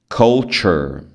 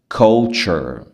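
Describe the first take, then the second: The two takes are said the same way.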